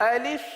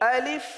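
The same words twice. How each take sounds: Both takes have the same delivery.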